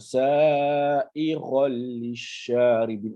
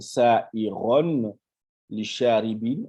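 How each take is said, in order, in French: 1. Le n fusionne en un l doublé. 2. On entend un son n avant le l. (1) "le nun là, hein, il disparaît, le lam se dédouble" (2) "Au lieu de dire"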